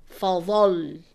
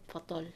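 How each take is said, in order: First: "Fadal" said louder with the final doubled letter pressed; emphasized shadda. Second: Said in the usual way. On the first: Shown as a demonstration. Teacher demonstrating, stresses final shadda of "Fadal". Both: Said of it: "It's not fadal, fadal".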